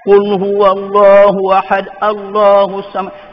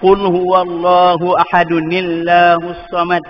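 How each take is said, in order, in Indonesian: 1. Ahad bersambung dengan Allahus tanpa bunyi -un. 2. Ahad disambung sebagai ahadun ke dalam illahus. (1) "Jangan baca ... Tak berhenti" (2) "Kalau dia terus dia kena baca"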